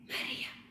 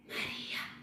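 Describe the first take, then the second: The two takes are said the same way.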